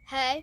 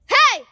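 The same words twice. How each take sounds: First: It is said softly, without projection. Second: It is said loudly, with strong projection.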